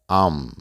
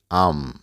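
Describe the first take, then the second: First: It is said in a casual, informal way. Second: The same.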